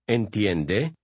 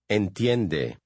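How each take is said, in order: First: The voice rises at the end. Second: The voice falls at the end.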